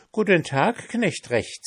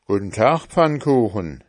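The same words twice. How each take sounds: First: High, bright pancake greeting; sing-song cheeky pancake. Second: Lightly voiced farmhand greeting; a hint of a plain farmhand. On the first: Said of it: "sagte der Pfannkuchen". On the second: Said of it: "sagte der Knecht". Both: A narrator's reading.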